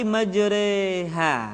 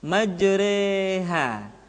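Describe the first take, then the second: First: The vowel after r leans toward e. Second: The vowel after r leans toward e.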